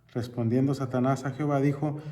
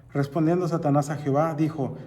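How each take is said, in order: No difference in how they are said.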